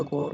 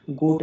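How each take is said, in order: First: गॉट with an open aw; short O sound. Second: गोट with a long oh; long O sound. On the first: Teacher correcting the reading, गॉट with open o. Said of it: "गॉट होगा". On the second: Teacher rejecting a misreading, गोट with long oh. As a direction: say गोट as in English goat. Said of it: "गोट नहीं होगा". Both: Shown as a demonstration.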